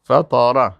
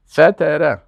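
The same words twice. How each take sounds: First: فطره with a heavy ط and dark a vowels; dark, full ط in فطره; heavy emphatic T. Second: فتره with a light t and front e vowels; thin, plain t in فتره. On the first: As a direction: say فطره thickly, like fataara. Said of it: "فطره به تا". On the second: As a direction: say فتره thinly, like fetere. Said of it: "اما به تی". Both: Shown as a demonstration.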